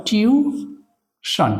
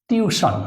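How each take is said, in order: First: tuition very slowly, split as টিউ, শন; higher, held টিউ, pause, then শন; syllable by syllable. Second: Said in the usual way. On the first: Shown as a demonstration. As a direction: break tuition in two for spelling. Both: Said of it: "syllable ভাগ করে এটাকে যদি আমরা উচ্চারণ করি".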